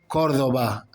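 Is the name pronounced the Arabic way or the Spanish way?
Spanish. The name is said with Spanish pronunciation. "as the Spanish would um, pronounce it"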